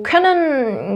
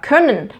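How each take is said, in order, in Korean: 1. 끝 부분을 또렷하고 온전하게 발음해요. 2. 끝 부분이 뭉개져 이어지고 약하게 줄어들어요.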